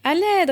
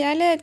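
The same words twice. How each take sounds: First: Even higher, louder cry for help; calling again. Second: High, loud cry for help; trapped elephant calls for help, high and loud; calling for help. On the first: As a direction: call out once more, stronger. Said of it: "répète-t-il". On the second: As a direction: call out for rescue. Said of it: "crie-t-il". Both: A narrator's reading.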